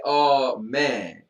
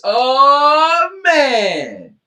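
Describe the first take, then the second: First: Said in the usual way. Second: "Oh" high and loud, "man" falling; big "Oh, man". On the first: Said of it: "You didn't say". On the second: Shown as a demonstration. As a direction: belt the "Oh" high, drop on "man". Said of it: "You didn't say, "Oh, man".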